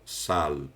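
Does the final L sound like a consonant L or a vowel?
consonant L. The final L is a clear consonant sound. This is how people there say it. "Lá eles falam sal"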